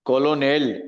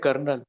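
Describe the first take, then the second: First: It is said with three syllables, col-o-nel. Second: It is said with two syllables, kernel. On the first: The speaker calls it wrong. "તમે વાંચવા જાવ તો કોલોનેલ થાય" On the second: The speaker calls it right. "પણ એનો ઉચ્ચાર થાય છે કર્નલ"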